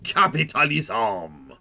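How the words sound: It is said in an exaggerated French accent. "some guy with a really outrageously French accent"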